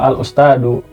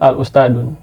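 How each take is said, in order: First: The word ends in a plain u vowel. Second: The word ends in an added n sound. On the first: The speaker calls it right. "Harusnya nggak tanwin, harusnya tan domah, eh, domah aja gitu" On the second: The speaker calls it wrong. "malah banyak yang menyebut al ustadun. Nah itu kurang tepat"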